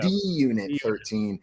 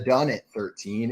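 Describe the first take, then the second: First: The handle is read as the letter D, then 'unit'. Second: The handle is read as the words 'done it'. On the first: The speaker calls it right. "It is the" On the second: The speaker calls it wrong. "It is not pronounced the Done It thirteen"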